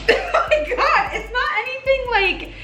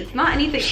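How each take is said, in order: First: High, giggling "it's not anything"; giggly reassurance; laughing. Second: Said in the usual way. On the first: Real, not acted. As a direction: laugh through the words much higher. Same words, laughing high.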